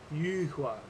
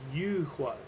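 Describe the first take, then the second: First: The word begins with an intense 'oo' vowel. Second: The same.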